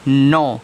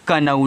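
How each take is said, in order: First: No k sound is heard at the start. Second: A k sound is heard at the start. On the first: The speaker calls it right. "इसको पढ़ोगे नो" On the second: The speaker calls it wrong. "तो इसको आप कनऊ नहीं पढ़ोगे"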